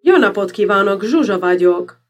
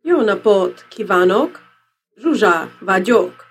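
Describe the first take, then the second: First: "Jó napot kívánok, Zsuzsa vagyok" with stress on each word's first syllable; fluent Hungarian, hitting the first syllable of "Jó", "napot", "kívánok", "Zsuzsa", "vagyok"; proper Hungarian emphasis. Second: "Jó napot kívánok, Zsuzsa vagyok" slowly, stress dragged onto middle or last syllables; halting non-speaker's Hungarian, leaning late on "napot", "kívánok", "Zsuzsa", "vagyok"; wrong syllables stressed.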